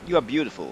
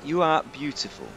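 First: Beautiful has a soft D-like sound in the middle. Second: Beautiful has a clear T sound in the middle. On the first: The speaker calls it wrong. "Not you are beautiful" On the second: The speaker calls it right. "That's what you need to say to your significant other"

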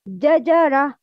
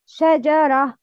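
First: The word begins with a j sound. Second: The word begins with a sh sound. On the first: The speaker calls it wrong. "The wrong pronouncing is jajara" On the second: The speaker calls it right. "The right pronouncing for this word is shajara"

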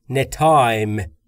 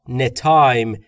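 Both takes have the same delivery.

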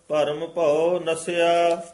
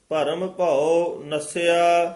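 No difference in how they are said.

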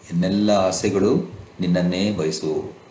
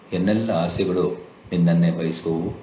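No difference in how they are said.

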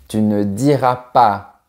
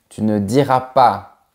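No difference in how they are said.

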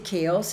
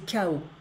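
First: The final S sound is pronounced. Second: The final S sound is silent. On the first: The speaker calls it wrong. "we don't say chaos in French" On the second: The speaker calls it right. "we say chaos, so we don't pronounce the S"

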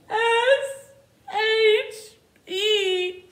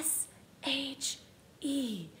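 First: The letters sound like a sad baby. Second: The letters are whispered.

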